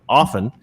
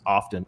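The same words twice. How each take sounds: First: The t in the middle is silent. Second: The t in the middle is pronounced. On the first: The speaker calls it right. "it's like listen" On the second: The speaker calls it wrong. "I don't like mispronouncing the word often"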